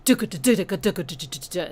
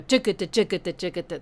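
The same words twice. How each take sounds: First: Fast, even Duka-da-da-da-da-da-da-da-da-da with no swing; straight rhythm. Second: Fast, bouncing Duka-da-duka-da-duka-da-duka-da with a long-short lilt; swung rhythm. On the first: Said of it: "It goes". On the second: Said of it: "instead of duka-da". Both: Shown as a demonstration.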